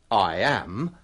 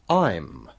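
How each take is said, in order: First: Two separate words, with the full vowel. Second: One short syllable, with the vowel dropped. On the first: The speaker calls it wrong. "Biasanya kita tidak mengatakan" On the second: The speaker calls it right.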